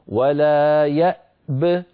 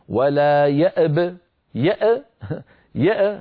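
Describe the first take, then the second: First: The glottal stop is silent; only the final b bounces. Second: The glottal stop itself is released with an echoing bounce. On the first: The speaker calls it right. "فنسكن الهمزة ونسكن الباء مع قلقلتها هكذا" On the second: The speaker calls it wrong. "يعني ما يقول الواحد ولا يأب يأ هذه قلقلة"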